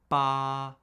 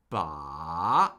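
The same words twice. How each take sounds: First: The pitch stays high and level throughout. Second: The pitch dips down and then rises. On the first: "The first tone is high, flat, and unchanging" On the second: "The third tone falls and rises"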